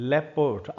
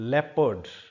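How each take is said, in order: First: The word is said with two syllables. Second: The word is said with two syllables.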